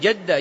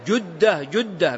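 First: The first vowel is not a u sound. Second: The first vowel is a u sound. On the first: The speaker calls it wrong. "بعضهم يقول جدة لأن حواء أمنا مدفونة في جدة" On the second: The speaker calls it right. "جدة بالضم"

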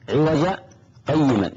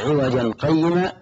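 First: There is a short pause between the two words. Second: The two words run together without a pause. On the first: Crookedness is denied and uprightness is affirmed. The speaker calls it right. "هنا سكتة لطيفة، سكتة للقارئ لمن يقرأ أن يقف" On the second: Both crookedness and uprightness seem to be denied. The speaker calls it wrong. "فلو وصل وقال"

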